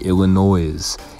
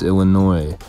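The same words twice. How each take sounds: First: The word is said the Southern way. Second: The word is said the standard way. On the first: The speaker calls it wrong. "some southern people that pronounce it like Illinois" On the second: The speaker calls it right. "even though it's Illinois"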